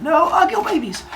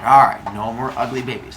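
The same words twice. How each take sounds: First: Very high, silly cartoon voice; squeaky sealing of the deal; mock pledge. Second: Low-pitched acceptance; resigned agreement. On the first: Both seal the deal shaking hands. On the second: Acted. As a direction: settle the deal, pitched down. Father Sky grudgingly agrees.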